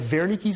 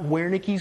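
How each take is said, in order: First: The word begins with a V sound. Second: The word begins with a W sound. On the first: The speaker calls it right. "It's a V" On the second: The speaker calls it wrong. "It's not Wernicke's area"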